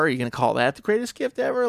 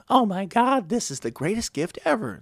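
First: Said in the usual way. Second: Overblown gushing. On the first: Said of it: "If I come and bring you a car". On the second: Retold or imitated. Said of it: "if you exaggerate the smallest thing".

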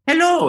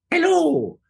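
First: High, loud Mario hello. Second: High Mario hello. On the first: Demoing the tracked Mario face, high and loud. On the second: The mask's Mario voice answering, high. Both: Shown as a demonstration. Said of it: "Mario's voice would go".

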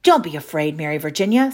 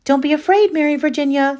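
First: John's voice. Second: Put-on high, loud girl's reassurance; Louisa's voice. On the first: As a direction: play it cool and grown-up. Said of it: "said John". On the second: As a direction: call up brightly to calm her. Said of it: "said Louisa". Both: A narrator's reading.

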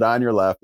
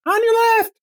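First: Said in the usual way. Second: Tiny squeaky high voice; mouse voice. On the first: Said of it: "after he said". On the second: Retold or imitated. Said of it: "mouse voice".

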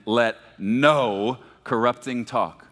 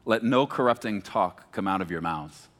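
First: Slowly, landing hard on "no"; stress on "no". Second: Said in the usual way. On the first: Shown as a demonstration. Preacher leading congregation in the verse, "no" punched and stretched. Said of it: "when I say no". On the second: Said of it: "Let me read that again".

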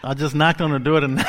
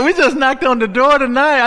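First: Laughing. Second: "knocked" shouted high and loud; preacher's shout. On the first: Laughs at his own line. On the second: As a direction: fling "We just knocked on the door tonight" out to the crowd. Repeats the line shouted. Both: Real, not acted.

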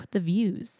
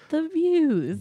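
First: Said in the usual way. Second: "views" swooped high and long; dreamy emphasis. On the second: Shown as a demonstration. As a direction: sigh out "the views" with delight. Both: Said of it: "repeats phrase with emphasis".

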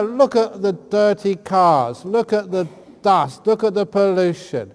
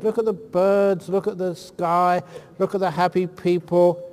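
First: Mock-negative tone. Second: Positive coaxing. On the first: Shown as a demonstration. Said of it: "tell her". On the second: Retold or imitated. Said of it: "I try and give her a positive attitude".

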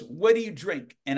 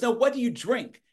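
First: Put-on slightly high Southern-accented question; Carl Killingsworth. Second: Much higher, insistent Southern question; Carl Killingsworth. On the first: Southern man asks the page his drink, imitated Southern accent. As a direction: imitate a Southerner asking casually. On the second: Retold or imitated. Southern man rejects Coke and asks again, imitated insistent Southern accent. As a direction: imitate a Southerner pressing for a real answer. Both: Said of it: "that's how Carl talked".

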